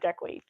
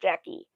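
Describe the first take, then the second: First: The name ends with a 'kwee' sound. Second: The name ends with a plain 'kee' sound. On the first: The speaker calls it wrong. "not Jackie" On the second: The speaker calls it right. "just Jackie"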